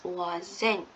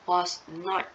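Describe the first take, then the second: First: It is said as one contracted word. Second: It is said as two full words. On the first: "you pronounce it wasn't" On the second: "read it as the full sentence like was not"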